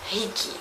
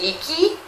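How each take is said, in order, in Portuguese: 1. Começa com um som de garganta, parecido com 'h'. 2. Começa com um som de ponta de língua. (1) "você nunca vai falar Rick. Rick não existe" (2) "em nenhum desses casos vai ser um R brasileiro"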